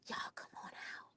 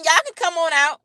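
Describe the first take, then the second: First: It is said in a whisper. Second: It is said in a normal voice.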